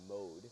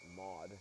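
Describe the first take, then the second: First: The name is said the French way. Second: The name is said the American way. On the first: "she pronounces it French Canadian. She pronounces it mode" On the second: "if you were American, you would pronounce it Maud"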